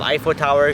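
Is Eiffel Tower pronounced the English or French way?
English. The name is pronounced the English way. This is the usual way to say it. "instead of Eiffel Tower"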